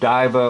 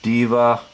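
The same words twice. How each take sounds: First: The first vowel sounds like 'eye'. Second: The first vowel sounds like 'ee'. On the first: "pronounce the I as an actual long I" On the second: "give it an E sound like a long E"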